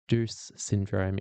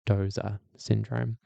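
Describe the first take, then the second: First: The name is said the common Australian way. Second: The name is said the original German way. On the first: This is how most people locally say it. The speaker calls it wrong. "everyone calls it Deuce syndrome in Australia" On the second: This is how native speakers say it. The speaker calls it right. "I'm told that it's Dozer syndrome"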